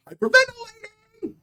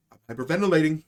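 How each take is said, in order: First: Much higher, gasping squeal; panic-squeak the word Hyperventilating; hammed-up breathless shriek for emphasis; mock hyperventilating cry. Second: Said in the usual way. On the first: Shown as a demonstration. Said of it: "For emphasis!".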